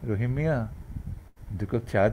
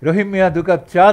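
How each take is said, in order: First: It is said with a soft, gentle flow. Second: It is said with a harsh, jolting stress. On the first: It is the natural sweet Bangla manner. The speaker calls it right. "এটা হচ্ছে Bangla" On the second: It carries a borrowed foreign accent. The speaker calls it wrong. "যে ধাক্কা দিয়ে আমরা কথা বলি"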